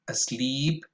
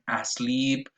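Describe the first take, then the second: First: The first vowel is a relaxed schwa. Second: The first vowel is a full, effortful vowel. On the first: The speaker calls it right. "schwa at the beginning of words" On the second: The speaker calls it wrong. "A common mistake is that people say contain and asleep"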